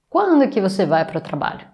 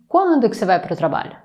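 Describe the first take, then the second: First: The word 'é' is left out after 'quando'. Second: The same.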